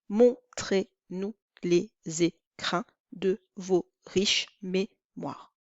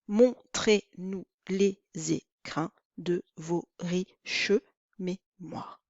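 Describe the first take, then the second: First: The final e of riches is silent. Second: The final e of riches is pronounced. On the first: This is the everyday pronunciation. "Normalement, on devrait dire ... on obtient onze syllabes ... onze" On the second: This gives the line the twelve syllables of an alexandrine. "nous allons être obligés de prononcer ce E devant consonne ... douze syllabes"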